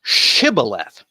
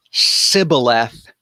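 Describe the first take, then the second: First: "shibboleth" slowly with a clear sh; sh version. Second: "sibboleth" slowly with a plain s; s version. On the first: Teacher giving the Gileadite form, slow sh version. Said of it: "they pronounce it". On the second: Teacher contrasting dialect forms, slow s version. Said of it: "different dialects ... pronounce". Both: Shown as a demonstration.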